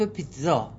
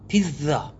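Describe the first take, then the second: First: A 't' sound comes before the 'z'. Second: No 't' sound; the 'z' is doubled. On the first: "ما تو فارسی ت بهش اضافه کنیم" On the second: "زش تشدید داره"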